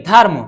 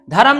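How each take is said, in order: First: "धर्म" with the r joined straight to m, dharm in one beat; correct dharm. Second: "धर्म" with an extra vowel, dha-ram in two full syllables; wrong dharam. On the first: Teacher gives students the right dharm, r and m joined. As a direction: close "धर्म" tight as dharm, no vowel after r. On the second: Teacher shows students the wrong dha-ram, an extra vowel. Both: Shown as a demonstration. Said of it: "धर्म नहीं".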